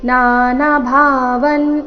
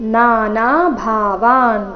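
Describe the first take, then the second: First: The vowel before the final n is short. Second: The vowel before the final n is long. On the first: The speaker calls it wrong. "ಈ ರೀತಿ ಮಾಡಬಾರ್ದು" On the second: The speaker calls it right. "ಮೊದಲ ನಾಲ್ಕು ಅಕ್ಷರಗಳು ದೀರ್ಘ"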